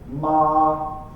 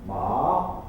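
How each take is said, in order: First: The pitch stays high and level. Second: The pitch rises from lower to higher. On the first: "The first one is called the first tone... It's a strong high tone" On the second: "second tone... It's a rising tone"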